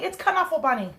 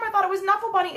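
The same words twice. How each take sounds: First: Knuffle said "kuh-NUFF-le" with the k sounded; right pronunciation. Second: Knuffle said "nuffle" with a silent k; old wrong pronunciation. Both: Shown as a demonstration. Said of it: "I've been saying it wrong".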